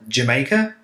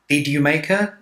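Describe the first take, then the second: First: The words blur together with weak forms. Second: Each word is said clearly and separately.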